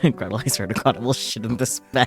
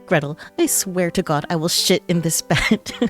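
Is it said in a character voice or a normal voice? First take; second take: normal voice; character voice. First: It is said in the reader's normal voice. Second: It is said in a put-on Reiki character voice.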